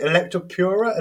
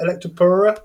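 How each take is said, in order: First: Electropura with a y-glide, "Electro-PYOO-ra"; "pyoo" pronunciation. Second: Electropura without the y-glide, "Electro-POO-ra"; "poo" pronunciation. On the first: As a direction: say the "pura" in Electropura as "pyoo-ra", questioning. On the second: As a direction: say the "pura" in Electropura as plain "poo-ra", questioning. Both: Shown as a demonstration. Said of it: "how do you pronounce it?".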